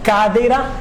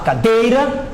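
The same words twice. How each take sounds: First: The stress is on the first syllable. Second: The stress is on the second syllable. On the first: The speaker gets stuck. The speaker calls it wrong. "na primeira sílaba do cadeira" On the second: The speech flows smoothly. The speaker calls it right. "eu vou jogar na sílaba correta"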